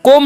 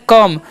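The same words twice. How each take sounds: First: कॉम with a rounded O, like "kom"; mispronounced come. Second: कम with a short uh vowel, like "kum"; correct vowel in कम. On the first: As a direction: say कॉम wrongly with an open O vowel. (कॉम में गलत, गोल "ओ" की आवाज़) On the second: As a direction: say कम as "kum", the O sounded as अ. (कम में छोटा "अ", "ओ" नहीं) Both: Shown as a demonstration. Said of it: "कॉम नहीं पढ़ना है".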